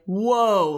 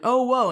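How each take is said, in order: First: It sounds like a warning to slow down. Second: It sounds surprised.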